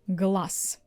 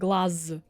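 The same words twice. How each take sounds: First: The final consonant is voiceless, like s. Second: The final consonant is voiced, like z. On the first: The speaker calls it right. "You see, I replaced all of them" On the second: The speaker calls it wrong. "I'm not saying глаз"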